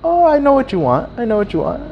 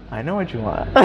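First: Hammed-up "I've got you" tone; imitated knowing dealer. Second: Understated insider murmur; knowing undertone. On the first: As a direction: play up the sly offer in a high voice. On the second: Retold or imitated. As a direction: say it quietly, under your breath. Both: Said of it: "But he says it".

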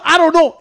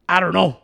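First: Louder, exasperated mock of the excuse; louder mocking repeat. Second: Low, lazy mock of the friend's excuse; mocking shrug. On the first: Roommate mocking the friend's excuse, louder and exasperated. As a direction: hammer home the lame excuse, louder. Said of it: "Eh, puro". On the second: Roommate mocking the friend's excuse, low and lazy. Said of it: "Ciro's first reaction is".

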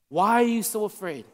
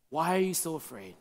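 First: Said in the usual way. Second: Low, hushed question; softly spoken, pitched well down; quiet question. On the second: Acted. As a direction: ask it softly and low, with weight. Jesus waking, question voiced twice.

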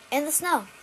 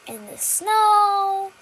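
First: SNOW said short, with a falling end; brief, matter-of-fact falling SNOW. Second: SNOW held long on a high, loud note; exaggerated long, high SNOW; drawn-out SNOW. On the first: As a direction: drop "snow" quickly, without stretching it. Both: Shown as a demonstration. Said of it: "Three very different things".

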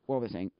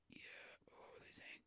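First: Said in the usual way. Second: Barely audible whisper; whispered to self. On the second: Real, not acted. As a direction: whisper it while searching for the lost thread. Loses thread, mutters to self.

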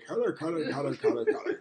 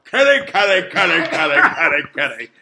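First: Subtle kitty call. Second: Louder coaxing kitty call; kitty cat call. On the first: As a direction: hush the cat call down. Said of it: "need to be more subtle". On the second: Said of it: "when I go". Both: Shown as a demonstration.

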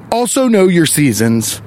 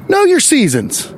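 First: Said in the usual way. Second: "Know your seasons" said slowly, pitched high, leaning hard on "Know"; stressed slow command. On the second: Shown as a demonstration. Vlogger scolding grammar hole husband, hits "Know" high and slow.

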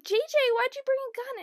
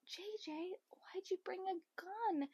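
First: Alarmed question. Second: Unvoiced whispered copy. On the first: Retold or imitated. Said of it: "They're like". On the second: Whispering their question to copy the cast. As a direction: whisper their line back. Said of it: "I'm like".

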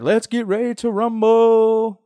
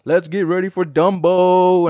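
First: High, slow, drawn-out ring announcer call; booming fight-night intro; Michael Buffer announcer. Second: High, loud, slow ring announcer parody; mock boxing announcer call; Michael Buffer announcer. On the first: Retold or imitated. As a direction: stretch it out like a boxing announcer. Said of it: "He's the one that's like". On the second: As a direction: belt it like a fight-night intro, but for Dumbo. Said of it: "he's like".

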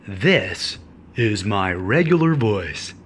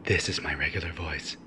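First: Low, slow put-on voice; fake regular voice. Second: Much lower, softer put-on voice; very deep voice. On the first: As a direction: pretend this odd voice is your own. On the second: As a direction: drop far down and claim it's your own. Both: Shown as a demonstration. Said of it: "Just kidding".

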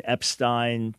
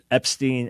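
First: "Epstein" ending in stine; "Epstein" rhyming with fine; pronounced EP-stine. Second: "Epstein" ending in steen; "Epstein" rhyming with green; pronounced EP-steen. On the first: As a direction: say "Epstein" with a long i in the last syllable. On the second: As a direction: say "Epstein" with a long ee in the last syllable. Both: Shown as a demonstration. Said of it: "I've seen both pronunciations".

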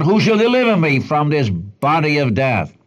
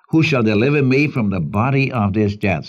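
First: Raised, mildly anguished plea; crying out. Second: Said in the usual way. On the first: Acted. Preacher acts a prisoner burdened with a corpse, crying out. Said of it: "And he cries out".

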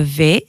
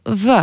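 First: Said in the usual way. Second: V said as "veu", not "vé"; v plus short eu; Albanian letter sound. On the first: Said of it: "ça se prononce". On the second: Shown as a demonstration. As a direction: say v as "vuh". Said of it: "ça se prononce v".

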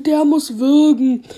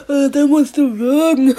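First: Said in the usual way. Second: Slow words through laughter; laughing while talking. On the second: Real, not acted. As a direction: repeat it while still laughing. Repeats punchline laughing.

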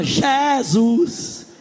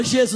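First: Jesus stretched slowly with a long rising end; slow, rising, devotional Jesus; drawn-out worship Jesus. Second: Said in the usual way. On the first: Shown as a demonstration. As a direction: linger on Jesus like a worship leader. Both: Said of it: "não fala Jesus, ela fala Jesus".

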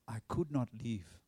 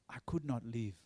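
First: Said in the usual way. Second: Whispered repeat. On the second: Retold or imitated. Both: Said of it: "He said".

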